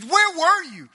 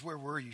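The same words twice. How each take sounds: First: High, loud mock-angry questioning; angry demand. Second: Soft, low, retold grief; tearful question. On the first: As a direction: confront him with a raised, accusing voice. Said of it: "and I'm just mad". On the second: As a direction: ask it quietly, hurt rather than accusing. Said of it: "She cries at his feet".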